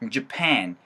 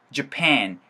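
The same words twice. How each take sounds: First: The first syllable is weak and the second dominates. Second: The first syllable is weak and the second dominates.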